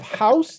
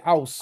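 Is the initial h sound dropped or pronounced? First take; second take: pronounced; dropped. First: The word begins with an h sound. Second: The word begins without an h sound. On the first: "instead of house" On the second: "they can't pronounce the letter H"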